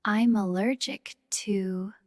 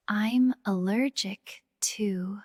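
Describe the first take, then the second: No difference in how they are said.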